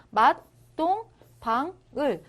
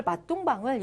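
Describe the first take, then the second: First: 맛동방을 slow, broken into syllables; syllable-by-syllable reading. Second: Said in the usual way. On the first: Shown as a demonstration. Teacher spells out the reading, 맛동방을 slowly separated. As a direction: break 맛동방을 up with a gap after each syllable. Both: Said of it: "이런 식으로 그냥 읽으시면".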